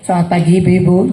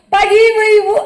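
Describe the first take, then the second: First: It is said in a lowered, composed voice. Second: It is said in a high, shrill voice.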